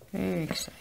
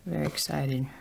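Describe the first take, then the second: First: Excited repeat. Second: Said in the usual way. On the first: Real, not acted.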